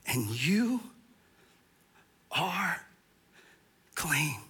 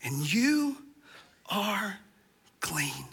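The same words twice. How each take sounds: First: Soft, breathy whispered reassurance; gentle whisper of assurance; hushed whisper. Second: Quieter echo fading into a whisper; hushed repeat of the promise; soft repeat. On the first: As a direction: whisper it like a secret comfort. Jesus' words whispered for emphasis. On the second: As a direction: let it sink in softly. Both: Acted.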